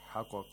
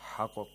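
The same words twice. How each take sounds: No difference in how they are said.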